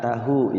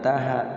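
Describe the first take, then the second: First: The final vowel is a u sound. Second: The final vowel is an a sound. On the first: The speaker calls it right. "tahu ya" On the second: The speaker calls it wrong. "bukan taha"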